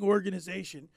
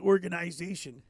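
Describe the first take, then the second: First: It is said in a plain, non-Canadian accent. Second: It is said in a Canadian accent.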